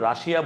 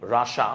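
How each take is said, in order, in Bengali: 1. শব্দটি শেষ হয় একটু লম্বা 'shia' উচ্চারণে। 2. শব্দটি শেষ হয় ছোট 'sha' উচ্চারণে। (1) "আমরা রাশিয়া বলি" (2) "উচ্চারণটা কি? রাশা। ... বাট রাশা বলে"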